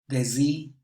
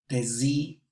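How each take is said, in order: No difference in how they are said.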